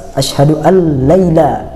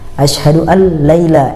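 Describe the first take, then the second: No difference in how they are said.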